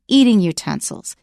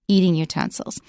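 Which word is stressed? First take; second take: eating; eating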